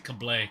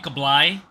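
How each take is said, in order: First: The name is said the American way. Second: The name is said the Filipino way. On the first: This is how the name's owner says it. "I say Kablay because I'm American" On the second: This is how Filipinos say the name. "Filipinos will call me"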